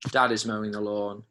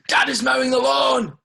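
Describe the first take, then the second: First: It is said flatly, falling at the end. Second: It is said with loud, excited emphasis. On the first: It simply states the fact. The speaker calls it right. "That's just going to be a full stop" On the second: It announces the fact with surprise. The speaker calls it wrong. "Exclamation mark"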